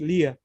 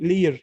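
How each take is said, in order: First: The final R sound is dropped. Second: The final R sound is clearly pronounced. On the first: "In British English, we say" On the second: "In American English, we say"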